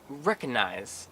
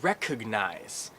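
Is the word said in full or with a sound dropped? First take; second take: dropped; full. First: The word is said with a sound dropped. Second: All three syllables are said in full. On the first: The speaker calls it wrong. "It's not recognize" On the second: The speaker calls it right. "It's three syllables"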